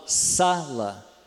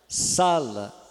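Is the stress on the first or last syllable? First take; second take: first; first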